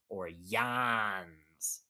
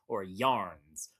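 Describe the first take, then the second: First: It is said in a Maine accent, dropping the r. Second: It is said in a general accent with the r.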